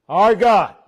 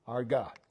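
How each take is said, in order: First: Louder, stress on God; emphatic. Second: Softly, almost to himself; quiet. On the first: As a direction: proclaim God firmly. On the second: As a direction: murmur the two words low and soft. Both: Shown as a demonstration. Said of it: "those two words".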